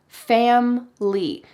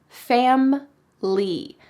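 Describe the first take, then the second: Both takes have the same delivery.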